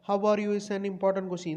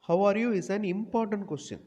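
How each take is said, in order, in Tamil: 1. “you” க்கு பிறகு இடைவெளி இல்லாமல் தொடர்கிறது. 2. “you” க்கு பிறகு இடைவெளி இருக்கிறது. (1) "இந்த மாதிரி வாசிக்க கூடாது" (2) "அந்த யூக்கு அப்புறம் ஒரு பாஸ் கொடுக்கணும்"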